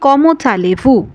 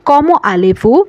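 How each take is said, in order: First: A consonant sound links the first word to 'allez'. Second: No consonant sound links the first word to 'allez'. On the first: The speaker calls it wrong. "এটা লিয়াজো করে উচ্চারণ করি" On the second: The speaker calls it right. "এখানে দর্শক লিয়াজো কিন্তু হবে না"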